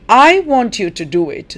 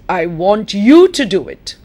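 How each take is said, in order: First: The stress falls on the word I. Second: The stress falls on the word you. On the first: The speaker, not anyone else, wants it done. "That means it's me, your teacher" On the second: The listener, not anyone else, should do it. "That means not your friend, not your brother... You should do it"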